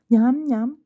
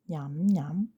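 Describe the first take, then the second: First: It is said somewhat louder. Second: It is said fairly softly.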